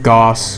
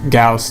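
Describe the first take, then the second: First: The vowel sounds like 'o' in cost. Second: The vowel sounds like 'ow' in cow. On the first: The speaker calls it wrong. "instead of Goss" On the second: The speaker calls it right. "it's pronounced Gauss"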